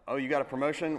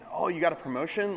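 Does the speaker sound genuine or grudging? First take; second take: grudging; genuine. First: The tone sounds doubtful and reluctantly pleased. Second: The tone sounds warm and sincerely pleased. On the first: The speaker is not really glad about the news. "Well, I'm really happy for you, I think" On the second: The speaker is truly glad about the news. "Like, I'm really happy for you"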